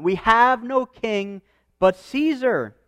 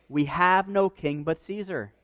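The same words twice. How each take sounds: First: "We have no king but Caesar" said slowly, stressing "have", a bit higher; preacher slowly repeats "We have no king but Caesar" for weight; slow weighty repeat. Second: Said in the usual way. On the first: Shown as a demonstration. Preacher repeating the quote so the church stops, slow and weighty. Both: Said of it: "that should make us stop for a minute".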